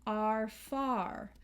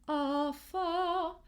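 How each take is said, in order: First: American "are far" with both R's sounded; American accent. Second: British "are far" with the R's dropped; higher, British-accented "are far", open vowels and silent R's. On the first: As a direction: bite down on each R in "are far", American style. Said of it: "in American accent, we will pronounce those R's". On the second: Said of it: "In a British accent, we might hear". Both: Shown as a demonstration.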